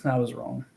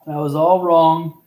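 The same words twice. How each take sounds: First: Said in the usual way. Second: All stretched and louder, slow; slow emphatic correction; stress on all. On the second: Shown as a demonstration. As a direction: lean on the word all.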